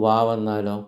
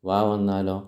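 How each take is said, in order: The two takes are said the same way.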